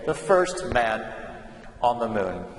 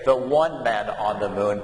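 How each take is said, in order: First: First lightly stressed in the first man on the moon; teacher modelling the correct form, first man; correct example. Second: The one man on the moon, given as the wrong way to say it; teacher modelling the incorrect form, the one man; wrong example. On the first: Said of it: "but we say". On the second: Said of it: "we don't say". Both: Shown as a demonstration.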